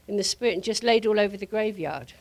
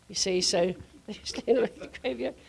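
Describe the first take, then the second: First: Said in the usual way. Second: Laughing through the words; chuckling as she repeats the line. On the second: Real, not acted. Retelling the fallen crowd to the ladies, laughing.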